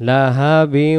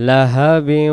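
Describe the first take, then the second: Both takes have the same delivery.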